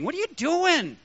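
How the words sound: The stress falls on the word doing. The action itself is not right. "maybe God put the emphasis on doing"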